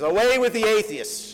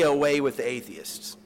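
First: Much higher and louder, hurled back at the crowd; defiant retort. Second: A persuasive, put-on voice offering an easy way out; coaxing official. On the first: Retold or imitated. Polycarp turning the charge on the crowd, defiant loud retort. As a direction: throw the words back at the pagans. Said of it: "he says". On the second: Proconsul urging Polycarp to renounce, coaxing. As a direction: coax him to say it, as if it costs nothing. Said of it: "at one point he says".

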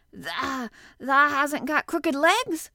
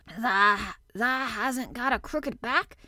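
First: Higher, louder, drawn-out hoarse question; hoarse quaver. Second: Hesitant, drawn-out hoarse question; lightly voiced hoarse old man, halting. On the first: Old gardener asks about the boy's legs, hoarse quaver. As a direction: quaver it out slowly in disbelief. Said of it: "quavered Ben more hoarsely yet". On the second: Old gardener doubting the boy's back, hoarsely. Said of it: "he said hoarsely". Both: A narrator's reading.

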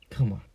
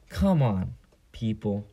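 First: Said in the usual way. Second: Exasperated plea. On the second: Real, not acted.

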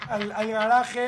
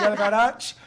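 First: "garaje" loud and drawn out with the Spanish j; Spanish pronunciation. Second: "garage" stretched loudly with a final "ch" sound; anglicised pronunciation. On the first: Storyteller correcting the word, "garaje" with Spanish j. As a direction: say "garaje" slowly as "ga-RA-he". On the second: Storyteller playing with the word, "garage" ending in "ch". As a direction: say "garage" slowly as "ga-RACH". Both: Shown as a demonstration. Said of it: "British English en esa escuela".

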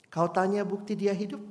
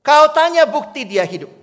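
First: Said in the usual way. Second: Higher and louder, spoken with force; loud proclamation. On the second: Acted. Pastor proclaims the refrain loudly to the congregation. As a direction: proclaim it boldly.

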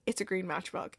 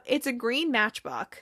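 First: Imitating a hushed, low realization; stunned quiet quote. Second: Said in the usual way. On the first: Rebecca looks down at the matchbook, imitated quiet realization. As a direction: drop right down, much softer and lower.

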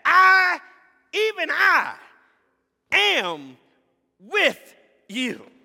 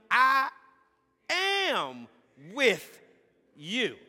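First: I, even I, am with you, I shouted high; I cried out high and loud, even I stressed; emphatic I. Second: I am with you, each word apart, I hit loud; each word its own beat, I loudest; stress on I. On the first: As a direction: shout the I, then land am with you. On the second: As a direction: space out I am with you, punching I. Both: Shown as a demonstration. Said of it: "I" is emphatic".

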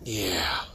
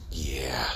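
First: Said in the usual way. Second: Breathy whispered "Yeah.". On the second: Real, not acted. Speaker to audience, a whispered aside. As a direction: drop it to a whisper.

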